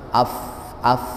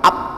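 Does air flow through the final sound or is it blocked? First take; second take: flowing; blocked. First: Air keeps flowing through the final sound. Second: The final sound is fully stopped, like p. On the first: The speaker calls it right. "ada angin yang keluar hams" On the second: The speaker calls it wrong. "Jangan sampai ditutup sama disumbat sama sekali"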